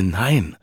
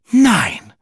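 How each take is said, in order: First: Said in the usual way. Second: High, loud astonished no; shocked gasp. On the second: A narrator's reading. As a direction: gasp out the no in disbelief. Wife shocked by gossip.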